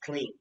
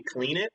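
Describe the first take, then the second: First: The ending is a plain d sound. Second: The ending is an extra syllable, like 'id'. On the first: The speaker calls it right. "but it's clean" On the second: The speaker calls it wrong. "people used to say clean it too"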